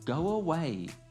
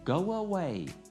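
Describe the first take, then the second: First: A w sound links the two words together. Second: A w sound links the two words together.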